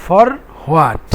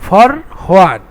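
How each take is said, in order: The two takes are said the same way.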